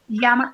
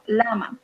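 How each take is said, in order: First: The word begins with a Y sound. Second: The word begins with an L sound. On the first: The speaker calls it wrong. "No y-" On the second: The speaker calls it right. "sounds more like L"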